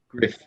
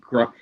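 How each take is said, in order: First: The vowel sounds like 'i' in 'sit'. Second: The vowel sounds like 'uh' in 'cup'. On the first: "but I think it's Griff" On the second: "It might be gruff. It's spelt gruff"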